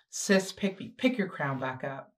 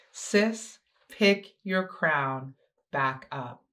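First: Said in the usual way. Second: Slowed right down, each word weighted; a slow, firm repeat; slow and deliberate. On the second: Shown as a demonstration. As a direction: spell it out slowly so it sinks in.

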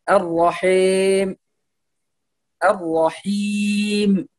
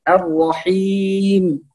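First: The wrong clipped ending of الرحيم; clipped kasra. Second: The correct complete kasra of الرحيم; full kasra. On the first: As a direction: say الرحيم with the kasra on the mim cut short, slowly. (اختلاس الكسرة خطأ) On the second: (إتمام الكسر في الميم) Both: Shown as a demonstration. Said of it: "إتمام الكسر في الميم".

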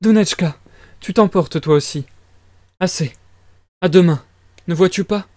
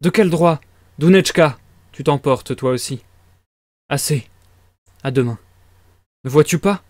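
First: Higher-pitched, worried mother's voice; mildly alarmed maternal voice; frightened mother. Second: Voiced near the reader's own pitch; lightly voiced character, fairly restrained; wrong character's voice. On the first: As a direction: plead anxiously in a raised pitch. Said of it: "Fit la mère tout effrayée". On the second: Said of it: "mauvais personnage". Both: A narrator's reading.

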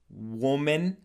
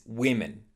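First: WOMAN with "wuu" as in wood; singular sound. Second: WOMEN as "WIM-in"; plural sound. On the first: Teacher showing the mistake, woman for the plural. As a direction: say "woman" slowly as "WUU-mun". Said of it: "who make this mistake". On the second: Teacher modelling the plural, women as wim-in. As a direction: say "women" with a short I first. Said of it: "which is the plural form". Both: Shown as a demonstration.

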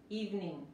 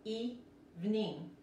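First: "Evening" in two quick syllables, "eev-nin", G unpronounced; silent final G. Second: "Evening" slowly split as "ee-vning", both vowels ee; Spanish I vowels. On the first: Teacher modelling the whole word, silent G in "Evening". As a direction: say "Evening" normally, without sounding the final G. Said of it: "la G no se pronuncia". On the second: Teacher breaking down the word for students, slow "ee-vning" for "Evening". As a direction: say "Evening" slowly in two parts with Spanish I sounds. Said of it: "las dos I se pronuncian como la I de español".

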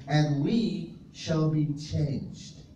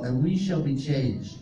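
First: Slow emphatic repeat. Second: Said in the usual way. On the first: Shown as a demonstration. Preacher repeating scripture to the congregation, slowly. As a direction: draw each word out slowly. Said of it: "he says". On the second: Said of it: "and we shall be changed (repeated)".

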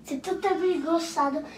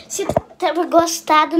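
First: Said in the usual way. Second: Louder restart. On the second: Real, not acted. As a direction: restart it louder, like a proper outro. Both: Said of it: "não, não".

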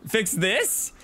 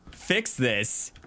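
First: Rising disbelief, pitched higher; puzzled echo of an order; incredulous. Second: Said in the usual way. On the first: Real, not acted. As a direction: fix this as if it's absurd. Incredulous at the odd request.

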